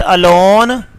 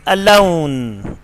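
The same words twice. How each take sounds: First: "alone" as "a-lawn", one pure vowel; wrong vowel. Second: "alone" as a slow "a-loh-oon"; correct vowel. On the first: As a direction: say "alone" without a glide. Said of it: "is not alone". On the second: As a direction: draw out and glide the O in "alone". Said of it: "but alone". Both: Shown as a demonstration.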